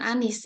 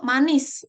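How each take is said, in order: First: The word begins with a vowel sound. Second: The word begins with an m sound. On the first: The speaker calls it wrong. "bukan anis" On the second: The speaker calls it right. "Lalu manis"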